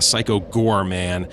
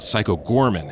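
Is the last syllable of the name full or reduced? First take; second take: full; reduced. First: The last syllable of the name sounds full. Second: The last syllable of the name sounds reduced. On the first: The speaker calls it right. "It's actually" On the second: The speaker calls it wrong. "it's not correct"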